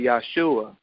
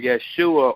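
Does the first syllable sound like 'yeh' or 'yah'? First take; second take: yah; yeh. First: The first syllable has an 'ah' vowel. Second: The first syllable has an 'eh' vowel. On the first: The speaker calls it right. "So I would assume that they would say Yahshua" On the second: The speaker calls it wrong. "the Hebrew word Yeshua"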